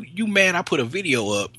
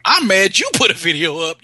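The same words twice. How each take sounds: First: "I" picked out against "you"; stress on I. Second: "you" punched as the real culprit; louder, high retort leaning on "you"; stress on you. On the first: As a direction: put the weight on "I", high-pitched complaint. Contrasts who is to blame. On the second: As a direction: throw the blame hard onto "you". Turns the blame round. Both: Acted.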